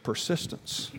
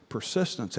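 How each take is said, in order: First: "Persistence" breathed softly and pointed; emphatic word. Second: "Persistence" low, soft, falling; emphatic word. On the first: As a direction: press "Persistence" home in a breathy hush. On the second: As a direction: settle "Persistence" down low and firm. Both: Real, not acted. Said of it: "Now listen to me".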